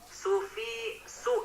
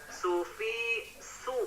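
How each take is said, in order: No difference in how they are said.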